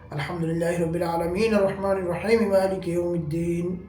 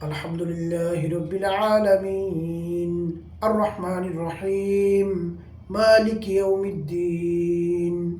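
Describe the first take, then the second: First: It is recited quickly with few pauses. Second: It is recited slowly with melody and pauses. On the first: This is the style of the Tarawih prayer. "এত দ্রুত পড়া শুরু করে দিয়েছেন" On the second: This is the style of the regular night prayer. "সুন্দর লেহান দিয়ে ধীরে ধীরে থেমে থেমে"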